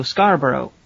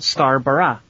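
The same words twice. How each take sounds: First: Scarborough ending in "burr-oh"; American pronunciation of Scarborough. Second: Scarborough ending in a short "bruh"; British pronunciation of Scarborough. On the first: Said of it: "the presenter Joe Scarborough". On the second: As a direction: say Scarborough as SCAR-bruh, the English way. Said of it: "in England there is a city called". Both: Shown as a demonstration.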